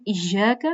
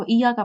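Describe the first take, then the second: First: "ایاک" as iy-yaaka, y held double; doubled consonant. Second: "ایا کا" as iyaaka with a single y; missing tashdeed. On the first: ("ایاک" تشدید کے ساتھ) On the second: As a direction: say "ایا کا" without doubling the y. ("ایا کا" تشدید کے بغیر) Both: Shown as a demonstration. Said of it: "تشدید بھی نہیں کرتے".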